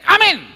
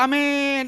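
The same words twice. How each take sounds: First: The word is said short and quick. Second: The word is drawn out long.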